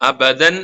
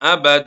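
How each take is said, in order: First: The word ends with an n sound. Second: The word ends with a long vowel. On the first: The reading continues without stopping. "അബദൻ എന്നുള്ളത്" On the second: The reader stops on this word. "അബദ എന്നാണല്ലോ വഖഫ് ചെയ്യാം"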